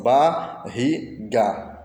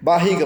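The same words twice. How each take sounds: First: Barriga slowly split as ba, rri, ga; syllable by syllable. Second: Said in the usual way. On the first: Shown as a demonstration. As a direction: pause between each syllable of barriga. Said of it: "As sílabas são". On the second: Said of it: "Quais são as sílabas?".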